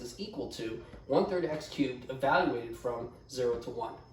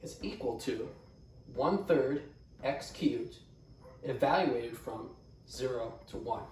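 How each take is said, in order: First: The phrase is spoken at a quicker pace. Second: The phrase is spoken at a slower pace.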